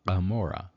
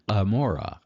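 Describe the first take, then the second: First: It begins with a throaty guttural sound. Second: The same.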